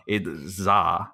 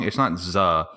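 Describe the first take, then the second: First: "Za" with an open ah vowel; corrected pronunciation. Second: "Zuh" with a short uh vowel; wrong pronunciation. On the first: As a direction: say "Za" to rhyme with "spa". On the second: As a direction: say "Zuh" to rhyme with "duh". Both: Shown as a demonstration. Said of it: "you're pronouncing it wrong".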